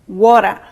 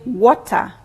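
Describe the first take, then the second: First: It is said in an American accent with a flap. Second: It is said in a British accent. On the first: "for American English, they talk about water" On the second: "For British English, we say water"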